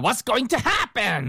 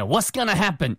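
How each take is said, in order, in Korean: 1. 각 단어를 분명하고 완전하게 발음해요. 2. going to는 줄여서 이어 붙여 발음해요. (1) "이렇게 강조를 했네요" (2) "이렇게 들릴지"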